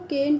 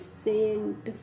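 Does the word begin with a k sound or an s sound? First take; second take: k sound; s sound. First: The word begins with a k sound. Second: The word begins with an s sound. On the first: The speaker calls it wrong. "इसको केंट नहीं पढ़ेंगे" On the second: The speaker calls it right. "इसको पढ़ेंगे सेंट"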